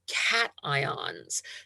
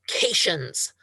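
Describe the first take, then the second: First: It is split like two separate words. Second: It is run together as one word. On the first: The speaker calls it right. "it is pronounced as if it were two separate words" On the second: The speaker calls it wrong. "Do not call them"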